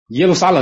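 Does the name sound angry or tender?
angry. The name is called sharply and angrily. The city is commanded to appear at once. The speaker calls it wrong. "你等着，立刻给我出现"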